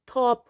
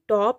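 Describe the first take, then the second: First: The first t has a strong puff of air. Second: The first t has no puff of air. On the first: The speaker calls it right. "ये word थॉप होता है" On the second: The speaker calls it wrong. "यानी टॉप नहीं"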